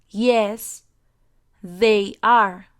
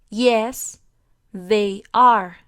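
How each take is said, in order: The two takes are said the same way.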